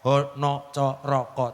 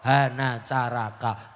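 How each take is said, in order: First: The vowels are pronounced as 'o'. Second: The vowels are pronounced as 'a'. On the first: This is the eastern Javanese reading. "Taling tarung dadi o" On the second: This is the original Banyumasan reading. "Tapi asline aksara ora ono coroko"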